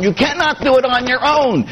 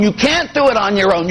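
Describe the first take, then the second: First: "cannot" stretched and pitched much higher; insistent stress. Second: Said in the usual way. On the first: Shown as a demonstration.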